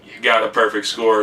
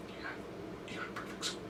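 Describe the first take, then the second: First: Said in the usual way. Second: Faint breathy whisper with almost no sound. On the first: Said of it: "in my ear". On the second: Shown as a demonstration. Professor secretly whispering a perfect score to her student. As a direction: hush it so it can barely be heard. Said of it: "Like that".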